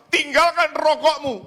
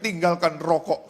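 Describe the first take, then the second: First: High, loud pulpit command; raised, ringing imitation of preaching; preacher's shout. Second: Said in the usual way. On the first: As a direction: shout it like a fiery sermon order. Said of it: "teriak-teriak".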